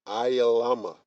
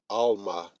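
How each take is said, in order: First: The word is said long, with more syllables. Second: The word is said short, with two syllables. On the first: This is the proper form of the word. The speaker calls it right. "but it's Ayalama" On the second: This is how another group says it. The speaker calls it wrong. "Esau with his Yiddish, he'll pronounce it Alma"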